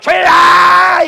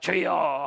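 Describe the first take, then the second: First: It is said loudly and forcefully. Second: It is said quietly and softly.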